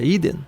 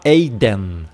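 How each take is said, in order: First: "idem" as EE-den, no glide; correct Greek sound. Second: "eiden" with the ei glide sounded; deliberately literal "eiden"; wrong, as written. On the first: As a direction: begin "idem" on a pure i. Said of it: "É idem". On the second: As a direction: say "eiden" as EY-den, both vowels. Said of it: "Você não vai falar". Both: Shown as a demonstration.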